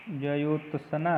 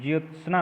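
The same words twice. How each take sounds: First: ज्योत्सना broken up as "jyo-ta-sa-na"; teacher sounding out ज्योत्सना with added syllables; wrong pronunciation. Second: ज्योत्सना as tight "jyot-snaa"; ज्योत्सना in two joined beats, jyot-snaa; correct pronunciation. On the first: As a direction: slip extra vowels into ज्योत्सना, slowly. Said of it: "नहीं ये नहीं होता है". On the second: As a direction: run the t-s-n of ज्योत्सना together without vowels. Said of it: "होता है". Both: Shown as a demonstration.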